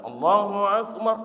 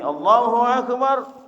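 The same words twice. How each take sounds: First: It is said plainly at a normal pitch. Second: It is said at a rather high pitch.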